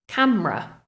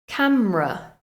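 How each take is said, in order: The two takes are said the same way.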